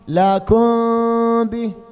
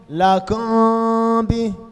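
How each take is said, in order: No difference in how they are said.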